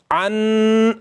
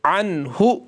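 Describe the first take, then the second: First: अन held long through the nose as ghunna; wrong nasal ghunna. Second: अनहु with a quick, clearly sounded न; clear izhar. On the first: Teacher demonstrating the wrong nasal अन. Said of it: "अन ऐसे नहीं पढ़ना, ये हो गया गुन्ना". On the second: Teacher showing students the correct clear नून. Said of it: "जल्दी पढ़ेंगे और इजहार करेंगे नून को". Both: Shown as a demonstration.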